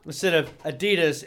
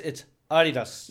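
First: "Adidas" said uh-DEE-dus, first vowel reduced to uh; American Adidas. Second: "Adidas" said AH-dee-dahs, open ah vowels in the first and last syllables; European Adidas. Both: Shown as a demonstration.

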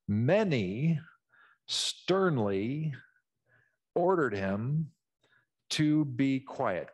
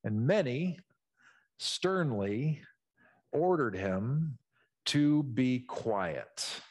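First: Slow, stern, each phrase alone; slow stern reading with long gaps. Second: Each word set apart, slow and stern; slow, heavy reading with pauses. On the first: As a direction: let the sternness sit in the pauses. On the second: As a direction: lay out every word slowly, sternly. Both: Shown as a demonstration. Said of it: "feel the tone coming out of their pores".

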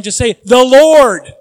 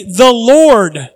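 First: Slow, loud 'The Lord'; 'The Lord' slow and louder; stress on Lord. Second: 'The Lord' said loud and firm; 'The Lord' louder, falling; stress on Lord. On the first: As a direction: lean hard on 'Lord', drawn out. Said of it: "capital L". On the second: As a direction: hit 'Lord' loud. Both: Shown as a demonstration.

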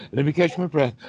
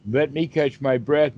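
First: A lightly acted, higher, winded plea; mock out of breath. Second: Said in the usual way. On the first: Shown as a demonstration. Teacher acts out a breathless person for the class, mock winded. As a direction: play it a little spent after the sigh. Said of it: "I can't even talk because I'm out of breath". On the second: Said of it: "let me catch my breath means let me stop breathing so hard".

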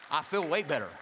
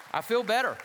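First: Said in the usual way. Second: Louder exclaimed relief. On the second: Real, not acted.

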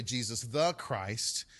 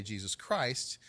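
First: "the" set apart and weighted before Christ; stress on THE. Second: Said in the usual way. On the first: Shown as a demonstration. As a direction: lean on the word "the". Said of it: "put the article there". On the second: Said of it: "we just say Jesus Christ".

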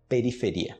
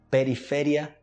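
First: "periferia" stressed on RI; Portuguese. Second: "periferia" stressed on FE; "periferia" as pe-ri-FE-rya; Spanish. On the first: Teacher answering in Portuguese, "periferia" stressed on final RI. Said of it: "em português". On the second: Teacher reading Spanish first, "periferia" stressed on FE. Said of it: "Em espanhol primeiro". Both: Shown as a demonstration.

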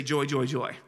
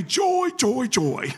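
First: Said in the usual way. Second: High, loud chant of joy joy joy; imitating the old saint's high loud "Joy, joy, joy"; old saint imitated. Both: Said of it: "That's how he said it".

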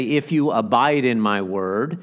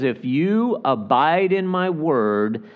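First: Said in the usual way. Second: "If you" lifted high with weight on "you", then slowed; slow down and lean on "you"; measured, emphatic reading that stresses "you". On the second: Shown as a demonstration. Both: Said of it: "emphasized as a distinction".

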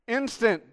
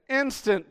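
No difference in how they are said.

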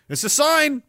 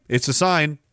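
First: "It's a sign" said much higher, falling; ominous pitch. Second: Said in the usual way. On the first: Shown as a demonstration.

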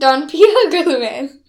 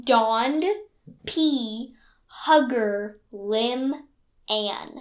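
First: "Don P Hugger Lim Ann" in one breath, loud on "Hugger"; run-together phrase. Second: Slow, separated words with pauses. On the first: Retries puzzle run together after advice. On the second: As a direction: say each word on its own. Repeats puzzle word by word. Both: Shown as a demonstration.

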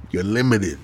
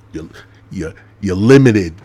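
First: Said in the usual way. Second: Louder emphatic limited; punchline. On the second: Acted. Explaining his LLC joke, loud punchline. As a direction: land the joke hard.

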